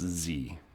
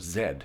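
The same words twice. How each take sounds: First: The letter is said as 'zee'. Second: The letter is said as 'zed'.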